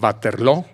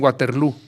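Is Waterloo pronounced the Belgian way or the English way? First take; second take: Belgian; English. First: It is pronounced the Belgian way. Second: It is pronounced the English way. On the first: "Así dicen los belgas" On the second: "en inglés dicen Waterloo, porque pronuncian como en inglés"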